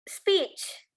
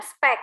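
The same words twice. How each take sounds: First: "speech" said as spich, long ee and a final ch; teacher modelling "speech" with a long ee and ch ending; "speech" spoken with a clear long ee and ch at the end; correct English pronunciation. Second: "spek" with a short e and a hard k ending; a slow demo of the mistaken "spek"; "spek" said as the wrong form, short e and k; wrong pronunciation. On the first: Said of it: "bahasa Inggrisnya adalah speech". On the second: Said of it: "bukan spek ya". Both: Shown as a demonstration.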